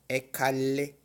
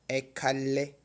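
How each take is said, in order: The two takes are said the same way.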